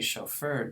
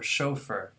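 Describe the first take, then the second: First: The stress is on the last syllable. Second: The stress is on the first syllable. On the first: This is the American way, keeping the French pattern. "Americans are fine to say" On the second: This is the British way, using the native English pattern. "apply their native English stress pattern"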